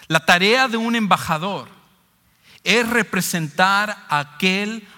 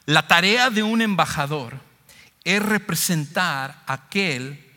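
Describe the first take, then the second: No difference in how they are said.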